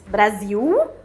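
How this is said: It is pronounced the Portuguese way. "em português Brasil"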